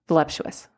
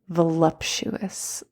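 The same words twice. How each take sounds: First: It is said quickly and plainly. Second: It is said slowly, savoring each sound.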